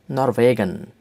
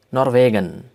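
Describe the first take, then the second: No difference in how they are said.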